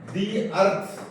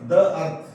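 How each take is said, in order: First: 'The' is said with a long 'ee' vowel. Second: 'The' is said with a short 'uh' vowel. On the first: The speaker calls it right. "ಇದು ಉಚ್ಚಾರ ಏನ್ ಬರ್ತದೆ ಅಂದ್ರೆ ದಿ ಅಂತ ಬರುತ್ತೆ" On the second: The speaker calls it wrong. "Not"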